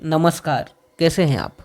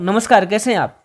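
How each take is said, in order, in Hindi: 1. यह नीची और आराम से छाती से बोली जाती है। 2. यह ऊँची और पतली है, छाती से नहीं। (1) "आप अपनी चेस्ट वॉइस में बात करें आराम से और ठहराव के साथ। जैसे" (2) "आप बहुत सारे लोग"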